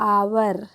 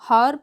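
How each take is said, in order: First: The word begins with a vowel sound. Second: The word begins with an h sound. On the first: The speaker calls it right. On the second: The speaker calls it wrong.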